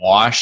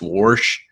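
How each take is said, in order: First: The word is said without an r sound. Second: The word is said with an added r sound. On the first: "instead of wash" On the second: "we add random R's to words that don't have R's in them"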